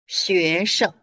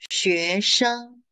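First: The last syllable is light and toneless. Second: The last syllable has a high level tone. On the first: "we remove the tone, it becomes neutral" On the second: "if it's first tone"

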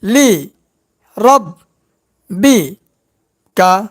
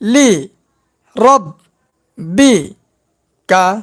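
Both takes have the same delivery.

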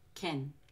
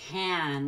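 First: The vowel is short, quiet and reduced. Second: The vowel is full, with a wide open mouth. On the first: The speaker calls it right. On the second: The speaker calls it wrong. "with a big open mouth on the ah"

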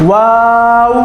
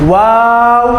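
No difference in how they are said.

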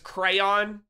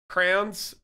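First: The word is said as two syllables, cray-on. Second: The word is said as one syllable, like crowns. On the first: "But it's crayon" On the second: "like crowns"

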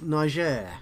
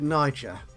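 First: The name is said in a native-style pronunciation. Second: The name is said in an anglicized pronunciation. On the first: This is how native speakers say it. The speaker calls it right. "I have a feeling this should be pronounced Niger" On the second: This is the habitual English way of saying it. The speaker calls it wrong. "I've always called it Niger because I'm a common English lad"

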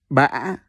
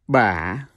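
First: The pitch rises with a break in the voice. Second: The pitch dips down and then rises. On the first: "With the funny sideway accent ... So you pronounce it as Ba" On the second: "The third one is Yau Hỏi. See that question mark? So you pronounce it as Ba"

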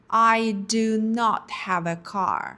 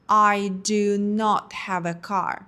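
Both takes have the same delivery.

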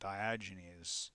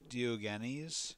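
First: The name is said in an anglicized English way. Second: The name is said in a Greek-style way. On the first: This is how most people commonly say it. "I've heard a lot of people say this person's name, and they'll say it as Diogenes" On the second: This attempts the original-language pronunciation. "I try to use the original language when possible... so I say Diogenes"

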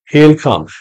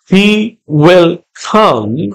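First: He and will merge into one short syllable. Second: He and will are said as two full words.

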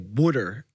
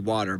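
First: Water is said in a Philadelphia accent. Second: Water is said in a standard accent.

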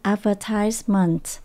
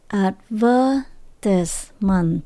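First: The stress is on the third syllable. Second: The stress is on the second syllable. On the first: "Còn nếu chúng ta đọc theo giọng Mỹ, ... Chúng ta nhấn âm số 3" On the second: "Nếu mà mình đọc theo giọng Anh, ... Chúng ta nhấn âm số 2"

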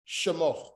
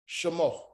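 The two takes are said the same way.

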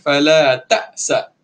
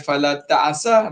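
First: The middle consonant is a plain glottal stop. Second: The middle consonant is a throaty ain sound. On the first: The speaker calls it right. "Ta'sa ada hamzah dekat situ" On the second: The speaker calls it wrong. "Jangan baca fala ta'sa, fala ta'sa ain"

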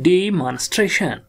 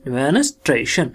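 First: The vowel after the d is a long ee. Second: The vowel after the d is short. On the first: "long vowel आई ई की sound कर दूं" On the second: "अब यहां पढ़ेंगे short में"

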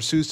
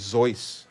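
First: The name is said the common, familiar way. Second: The name is said an unfamiliar, different way. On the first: The speaker calls it wrong. "We all say it wrong" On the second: The speaker calls it right. "I think it's supposed to be like Zeus"

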